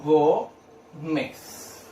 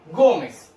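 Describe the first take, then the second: First: "Gómez" very slowly, long pause between Gó and mez; separado en sílabas. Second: Said in the usual way. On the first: Shown as a demonstration. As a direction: draw out "Gómez" as two isolated syllables. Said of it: "Separo en dos sílabas". («Gómez» muy lento, en dos sílabas bien separadas) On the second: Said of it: "Separo en sílabas".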